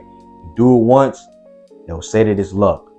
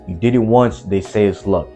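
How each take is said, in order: First: It is said slowly. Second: It is said at normal speed.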